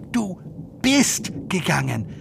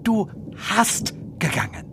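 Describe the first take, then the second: First: Du bist gegangen said clearly and carefully; puzzled learner quoting; quoting the German. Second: Du hast gegangen asked softly with a questioning lilt; wrong form. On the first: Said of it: "why does she say". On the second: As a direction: try out Du hast gegangen doubtfully. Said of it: "and not". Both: Shown as a demonstration.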